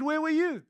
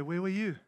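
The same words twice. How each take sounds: First: Higher, pointed repeat of the question; the Lord pressing the question. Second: The Lord's gentle question. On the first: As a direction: throw the question back with emphasis. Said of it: "And he said". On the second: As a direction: ask it quietly, as God answering. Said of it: "I felt the Lord say". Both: Retold or imitated.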